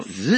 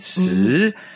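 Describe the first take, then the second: First: The pitch rises upward. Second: The pitch dips low and swings back. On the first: "zweiter Ton, so nach oben" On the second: "das ist der dritte Ton, das ist so unten schwingend"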